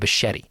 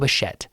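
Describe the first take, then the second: First: The name ends in an added 'ee' sound. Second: The name ends in a short 'bet' sound. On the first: The speaker calls it wrong. "I like to say Bichetti, but I know that's wrong" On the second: The speaker calls it right. "Is that right, Brooke?"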